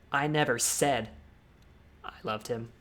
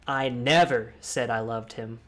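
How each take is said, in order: First: Pause, then land on loved; stress on loved. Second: Never stressed, slow. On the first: Emphasis exercise for viewers, stress on loved. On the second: Emphasis exercise for viewers, stress on never. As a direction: punch never. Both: Shown as a demonstration. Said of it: "you can change the word and".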